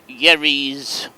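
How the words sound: The name is pronounced with English sounds. "would be the pronunciation in English"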